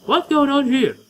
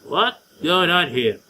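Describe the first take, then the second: First: Put-on higher and louder girly take. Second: Slow, level try at the line; first voice attempt. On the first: Streamer voicing the girl character, higher girly voice. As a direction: pitch it up into a tomboyish girl. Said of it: "a girly voice, but a still boyly voice". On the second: Streamer testing a voice for the girl, slow trial read. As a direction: feel out the character's voice slowly. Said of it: "I want to give her a girly voice". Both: Shown as a demonstration.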